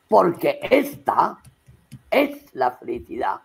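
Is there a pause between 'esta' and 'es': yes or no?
yes. There is a pause between esta and es.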